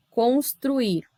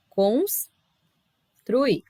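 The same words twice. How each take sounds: First: Said in the usual way. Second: "Construir" as cons, long pause, truir; split at syllable break. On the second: Shown as a demonstration. Teacher showing two consonants each side, split in two. Divides the example word in two.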